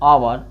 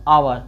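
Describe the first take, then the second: Both takes have the same delivery.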